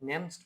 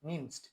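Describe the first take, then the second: First: The first vowel is an 'e' sound. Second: The first vowel is an 'i' sound. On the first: The speaker calls it wrong. "নেমসড বললেন না, নেমসড হবে না" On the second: The speaker calls it right. "মধ্যে একটা ই আসবে"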